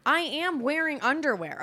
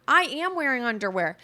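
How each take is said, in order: First: Higher repeat, leaning hard on I; indignant insisting. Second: Said in the usual way. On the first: Real, not acted. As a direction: defend yourself, pitched up and offended. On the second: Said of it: "Why aren't you wearing underwear?".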